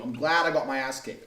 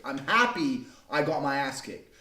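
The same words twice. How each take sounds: First: Said in the usual way. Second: "happy" stretched and leaned on, said slowly; slow down and press on "happy"; slow emphasis on happy. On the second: Real, not acted. Repeats the line, second time slower.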